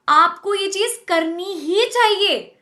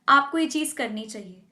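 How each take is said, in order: First: It is said emphatically, with changed pitch. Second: It is said plainly, with even pitch.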